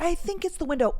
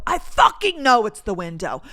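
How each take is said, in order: First: High, tentative polite hedge; put-on courteous uncertainty; trying to be polite. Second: Louder, emphatic irritation; indignant, forceful insistence; exasperated certainty. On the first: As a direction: suggest it gingerly, pitched up. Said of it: "me trying to be polite". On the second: Retold or imitated. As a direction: drop the politeness and punch "fucking". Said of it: "I was trying to be nice".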